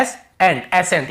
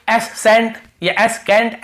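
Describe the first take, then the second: First: "एसेंट" as a-sent, a single s; silent C. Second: "एसेंट या एसकेंट" as es-sent or es-kent, higher pitched; C wrongly sounded. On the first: Teacher repeats the right form for students, single s. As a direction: say "एसेंट" with one s and no k. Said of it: "यहाँ पे सी नहीं पढ़ रहे". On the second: Teacher shows students wrong readings, C sounded as s or k. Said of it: "ऐसे नहीं पढ़ रहे". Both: Shown as a demonstration.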